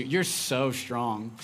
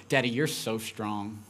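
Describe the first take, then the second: First: Slow, sing-song mock admiration with eyes rolling; eye-rolling drawl. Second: Daughter's praise. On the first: Daughter teasing daddy about his strength, slow and sarcastic. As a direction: drag it out like a kid buttering up her dad. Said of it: "she says it with that inflection too". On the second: Retold or imitated. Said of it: "and she responds".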